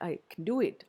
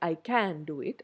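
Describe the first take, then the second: First: The word 'can' is reduced and weak. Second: The word 'can' is said in full. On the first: The speaker calls it right. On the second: The speaker calls it wrong.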